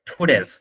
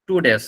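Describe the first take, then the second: First: The first t is strongly aspirated. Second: The first t is plain and unaspirated. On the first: The speaker calls it right. "এটা ঠর উচ্চারণ হবে টুডেস" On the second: The speaker calls it wrong. "আমরা যে টু উচ্চারণ করি টু উচ্চারণ এখানে হবে না"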